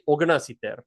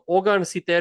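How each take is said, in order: First: The first word ends in an 'na' sound. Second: The first word ends in an 'an' sound. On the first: This is a common spoken form of the number. "people will say ogna siter" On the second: This is the standard form of the number. "ogan siter is the actual number"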